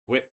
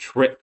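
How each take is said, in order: First: It is said with a W sound. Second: It is said with a clear R sound.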